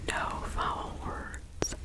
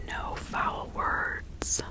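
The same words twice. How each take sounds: The two takes are said the same way.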